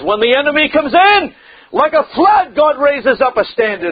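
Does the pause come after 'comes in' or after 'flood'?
after comes in. The pause comes after the words comes in. God raises a standard like a flood. The speaker calls it right. "Move the comma. Put it where it belongs"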